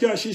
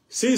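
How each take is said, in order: First: The word begins with a 'ch' sound. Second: The word begins with an 's' sound. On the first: This is how it is said in Katanga. "chi, ... ne au Katanga" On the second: This is how it is said in Kivu and Tanzania. "Si, si, les bantu au Kivu na ba Tanzania"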